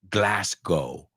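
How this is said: The last syllable sounds like 'go'. "I think they say Glasgow, more like go"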